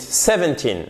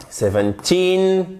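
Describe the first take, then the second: First: Put-on "seventeen" stressed early, with a short weak "-teen"; learner's wrong seventeen. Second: Put-on "seventeen" slow, with a high, long TEEN; stress on TEEN. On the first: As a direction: shorten and drop the end of seventeen. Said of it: "vous dites seventeen". (seventeen mal accentué, fin courte) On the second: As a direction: hold the long i in seventeen's last syllable. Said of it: "accent tonique ici avec un i long". (seventeen accentué sur "teen", i long et aigu) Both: Shown as a demonstration.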